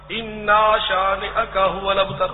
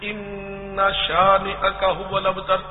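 No difference in how they are said.

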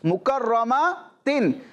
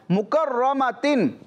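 Both takes have the same delivery.

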